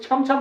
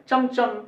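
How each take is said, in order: First: छम छम with breathy chh; wrong aspirated form. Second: चम चम with plain ch; चम चम without any puff of breath; English pronunciation. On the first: Teacher shows what they won't say, aspirated छम छम. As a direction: puff both chh in छम छम. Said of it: "छम छम नहीं होगा". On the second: Teacher shows how English speakers say it, unaspirated चम चम. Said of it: "वो लोग ऐसे बोलेगा". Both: Shown as a demonstration.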